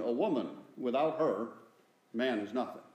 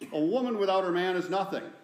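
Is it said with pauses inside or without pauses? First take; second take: with pauses; without pauses. First: There are pauses after "woman" and after "her." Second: It is said as one unbroken phrase.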